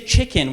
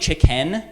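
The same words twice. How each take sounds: First: The second vowel sounds like a short 'i'. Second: The second vowel sounds like a clear 'e'. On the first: The speaker calls it right. "We say chicken" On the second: The speaker calls it wrong. "we don't say chicken. There's no E in the word chicken"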